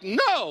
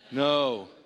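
First: It is said with lots of energy. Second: It is said with little energy.

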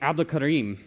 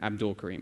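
First: The name is said with Arabic pronunciation. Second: The name is said with American pronunciation. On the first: The speaker calls it right. "I told him what his name was" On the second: The speaker calls it wrong. "That's different than"

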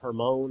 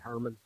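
First: The name is said in the standard pronunciation. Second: The name is said locally, like 'Herman'. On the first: This is the proper way to say the name. "you'd say Hermon is the actual proper pronunciation" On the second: This is how people in the local area say it. "We just say Hermon, right? ... like Hermon Munster, that's how we say it"

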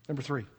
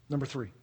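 No difference in how they are said.

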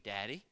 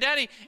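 First: It is said in a quiet, calm voice. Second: It is screamed loudly in a panicked voice.

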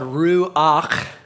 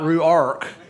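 First: The word ends in a throaty ch sound. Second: The word ends in a Southern rk sound. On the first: The speaker calls it right. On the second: The speaker calls it wrong.

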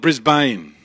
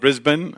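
First: It is said in an American accent. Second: It is said in an Australian accent.

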